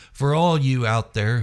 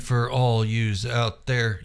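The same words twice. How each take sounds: First: Said in the usual way. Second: Yous said with a clear z ending, like youse; says yous. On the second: Real, not acted. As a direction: slip into yous, sounding the z after you. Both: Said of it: "Did I really say yous?".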